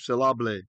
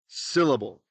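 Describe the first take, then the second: First: The stress falls on a later syllable. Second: The stress falls on the first syllable. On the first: The speaker calls it wrong. "Nobody puts the tone on those syllables" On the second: The speaker calls it right. "The first syllable in the word syllable is where we put the, the tone"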